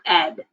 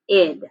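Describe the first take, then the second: First: The vowel sounds like a short e. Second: The vowel sounds like a short i. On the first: "not ed" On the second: "when you say it fast, it kind of sounds like id"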